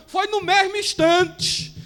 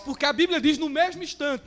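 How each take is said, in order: First: "mesmo" slowed and stressed. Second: Said in the usual way. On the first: Shown as a demonstration. Preacher insisting it was "no mesmo instante", slow stress. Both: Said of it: "não foi no outro dia não".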